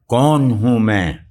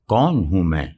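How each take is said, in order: First: It is said loudly, in a thundering voice. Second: It is said quietly, in a gentle voice. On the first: "अमीर तैमूर गरज कर" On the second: "अमीर तैमूर नरमी से"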